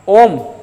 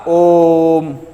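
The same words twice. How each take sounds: First: The vowel is held for a normal length. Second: The vowel is held noticeably longer. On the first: "ये तो बोलेगा सीधा ओम" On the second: "ओ की यहां पर तीन मात्रा है"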